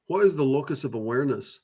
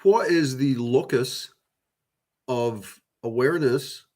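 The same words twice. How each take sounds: First: Said in the usual way. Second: Each word of "what is the locus of awareness" drawn out slowly; slow deliberate question. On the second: Shown as a demonstration. Musing to viewers on awareness, slow and deliberate.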